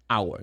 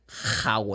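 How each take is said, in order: First: The word starts with no H sound. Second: The word starts with an audible H sound. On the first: The speaker calls it right. "I say hour" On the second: The speaker calls it wrong. "You don't say"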